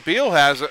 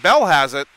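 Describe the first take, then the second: First: The name has a long ee vowel. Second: The name has a short e vowel. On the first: The speaker calls it wrong. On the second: The speaker calls it right.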